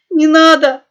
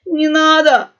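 First: Much louder, higher tearful cry on «надо»; loud crying plea. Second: Loud, higher howl on «надо»; howling plea. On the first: Young pug crying at the gun barrel. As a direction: burst into tears begging. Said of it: "громко расплакался молодой мопс". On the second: Pug brothers begging the cat pirate, howling. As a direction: cry out begging not to be harmed. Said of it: "взвыли тут же братья". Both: A narrator's reading.

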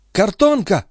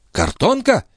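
First: High-pitched excited call; sudden high exclamation; excited cry. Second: High-pitched startled query; astonished repeat of the news; incredulous echo question. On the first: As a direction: cry out the news. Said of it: "крикнула она". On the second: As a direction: ask it back in disbelief. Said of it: "переспросила графиня". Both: A narrator's reading.

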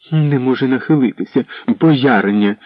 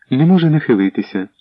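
First: Higher, mocking echo of не може нахилитися with a falling end; scornful mimicry. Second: Said in the usual way. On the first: Anna mocking the servant's excuse, scornful echo. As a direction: sneer the words back like a spoilt princess. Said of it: "не вгамовувалася Анна". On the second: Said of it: "сказала Світозара".

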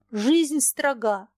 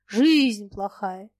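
First: Жизнь stressed slowly with a falling tune. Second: Жизнь louder, slow, mocking; mocking stress on Жизнь. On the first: The woman weighs her words to Foma, slow stress. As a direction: lean on Жизнь and let строга fall. Woman says life is strict. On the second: Foma mocks her complaint about life, slow scornful stress. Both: A narrator's reading.

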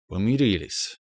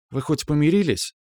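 First: Slow. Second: High, curious \"помирились\" with a falling end; curious question. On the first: Man slowly answers that they made up. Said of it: "медленно проговорил я". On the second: Girl curiously asks whether he made up with his girlfriend. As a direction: ask \"помирились\" lightly and high. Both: Acted.

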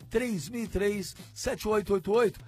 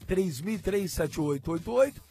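No difference in how they are said.

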